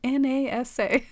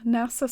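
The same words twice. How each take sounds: First: "N A S A" spelled out as four separate letters. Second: "nasa" spoken as one word, na-sa, not spelled. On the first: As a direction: spell "N A S A" one letter at a time. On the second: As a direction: say "nasa" as a single word, rhyming with "pasta". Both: Shown as a demonstration.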